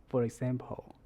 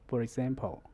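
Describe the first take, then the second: The two takes are said the same way.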